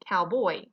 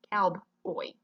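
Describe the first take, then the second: First: Said in the usual way. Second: "cowboy" slowly broken as "cowb, oy"; wrong syllable break. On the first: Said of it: "not cowboy". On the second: Shown as a demonstration. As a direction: split "cowboy" after the b, pausing before "oy". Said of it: "Your syllables are cow and boy".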